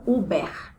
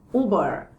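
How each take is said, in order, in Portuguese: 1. O R é pronunciado como um R português. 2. O R é pronunciado como um R inglês. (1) "e não Uber" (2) "você precisa soar o R do jeito que a pronúncia do R do inglês tem"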